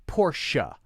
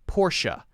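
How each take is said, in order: The two takes are said the same way.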